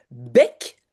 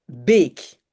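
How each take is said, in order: First: Short open è in "bec"; "bec" with è as in French "jet". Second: Long closed é in "bec"; "bec" with é as in French "sérum". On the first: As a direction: say "bec" with a brief open eh vowel. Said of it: "est de bec est plutôt accent grave". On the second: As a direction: say "bec" with a held ay-like pure vowel, no glide. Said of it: "et de bec est plutôt et". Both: Shown as a demonstration.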